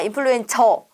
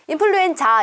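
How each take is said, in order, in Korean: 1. 마지막 음절은 'eo' 모음으로 끝납니다. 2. 마지막 음절은 'a' 모음으로 끝납니다.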